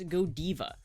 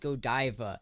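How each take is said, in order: First: It is said with a Belgian, French-leaning pronunciation. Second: It is said with an American English pronunciation. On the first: "In Belgium, its pronunciation leans more towards" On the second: "In the United States, Godiva is typically pronounced as"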